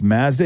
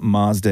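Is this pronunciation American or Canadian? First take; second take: Canadian; American. First: It is said with a Canadian pronunciation. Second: It is said with an American pronunciation. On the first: "It's Mazda in Canada" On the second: "Mazda in America"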